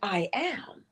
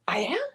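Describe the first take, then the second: First: It is said as a plain, certain statement. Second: It is said as a doubtful question. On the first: The speaker accepts it as true. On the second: The speaker doubts it is true.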